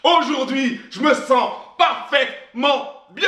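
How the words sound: It is said with feeling and energy.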